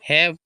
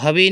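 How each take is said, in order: First: The word ends with a consonant sound. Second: The word ends with an extra vowel sound. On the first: The speaker calls it right. "हैव पढ़ते हैं" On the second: The speaker calls it wrong. "इसको हवे नहीं पढ़ते"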